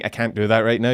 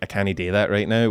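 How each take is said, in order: First: 'Can't' is said as the standard contraction. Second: 'Can't' is said as Scottish 'canny'. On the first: "instead of saying" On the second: "you might say like"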